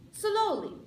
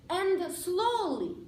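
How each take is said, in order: First: Slowly said high and emphatic; stress on slowly. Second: Slowly drawn out, slow and emphatic; stress on slowly. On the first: Repeating the advice to accented speakers, slowly lifted high. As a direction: lift slowly up and land it. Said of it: "speak up and speak". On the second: Advising speakers with accents, slowly stretched out. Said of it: "make sure you speak loudly and slowly". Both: Shown as a demonstration.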